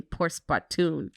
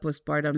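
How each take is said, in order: First: Drawn-out "postpartum" with a final "-toon"; imitating mock-French nickname. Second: Said in the usual way. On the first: Wife teasing husband's nickname for it, "postpartum" ending in "-toon". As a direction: say "postpartum" slowly as "pospar-TOON". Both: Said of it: "gave it a whole nickname".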